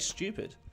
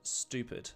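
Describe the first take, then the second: First: The first vowel has a y-sound before oo. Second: The first vowel is a plain oo, without y. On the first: "ended up changing by accident to stupid" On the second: "there's no U sound in it"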